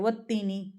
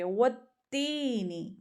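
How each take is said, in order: First: The vowel in 'tee' is cut short. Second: The vowel in 'tee' is drawn out long. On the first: The speaker calls it wrong. "व तीनी नहीं पढ़ सकते, व तीनी गलत है" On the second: The speaker calls it right. "तीनी एक अलिफ के बराबर खींच के पढ़ेंगे"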